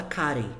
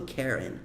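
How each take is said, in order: First: Karen said the Brazilian way, open KA-ren with a tapped r; Brazilian pronunciation. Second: Karen said the English way, KEH-rin; English pronunciation. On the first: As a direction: Karen as a Portuguese speaker says it, ka-ɾen. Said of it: "a gente fala Karen". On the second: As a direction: Karen with the English vowel, KEH-ren, soft r. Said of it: "Eles falam Karen". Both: Shown as a demonstration.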